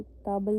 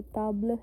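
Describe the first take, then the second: First: "ताब्ल" said as English "tabel"; "ताब्ल" with a full "tabel" ending; wrong English-style table. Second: "ताब्ल" with silent e, ending in a short l; French "ताब्ल" ending without a full vowel; French table. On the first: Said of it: "ताब्ल नहीं है". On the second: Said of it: "ये ताब्ल है". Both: Shown as a demonstration.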